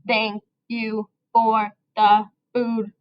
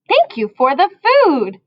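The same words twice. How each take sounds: First: Each word is said separately, like a robot. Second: The words flow together in one smooth phrase. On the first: The speaker calls it wrong. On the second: The speaker calls it right.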